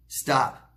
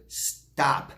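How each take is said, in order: First: Firm stop. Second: Breathy hushed stop, almost voiceless. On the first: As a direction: Stop said fully voiced and firmly, a bit louder. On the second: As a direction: breathe the word stop gently. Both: Real, not acted. Repeats stop as advice.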